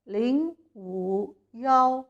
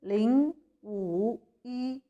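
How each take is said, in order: First: The last syllable is pronounced yao. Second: The last syllable is pronounced yi. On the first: The reading of one used in phone numbers. "लेकिन मैं इसको पढ़ रही हूँ" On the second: The standard reading of the digit one. "सिफर पाँच एक को इस तरह पढ़ना चाहिए"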